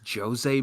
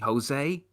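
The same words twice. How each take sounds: First: The name begins with a zh sound. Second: The name begins with an H sound. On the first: The speaker calls it right. "it's Jose Mourinho" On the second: The speaker calls it wrong. "it's not actually Jose ... We don't do the silent H thing"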